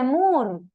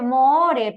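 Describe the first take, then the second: First: Moore with a U sound, "Mur"; correct spoken pronunciation. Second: Moore read as written, with Spanish O sounds; spelling pronunciation. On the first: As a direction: read the double O in Moore as U. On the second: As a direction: say Moore letter for letter, "mo-o-re". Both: Shown as a demonstration. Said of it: "esa doble O se lee como una U".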